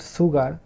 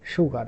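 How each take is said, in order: First: The word begins with a plain s sound. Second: The word begins with an sh sound. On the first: The speaker calls it wrong. "This is not sugar" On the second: The speaker calls it right. "this is actually sugar, and this is irregular pronunciation"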